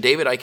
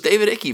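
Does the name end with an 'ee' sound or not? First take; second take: no ee; ee sound. First: The name ends without an 'ee' sound. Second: The name ends with an 'ee' sound. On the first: The speaker calls it right. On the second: The speaker calls it wrong.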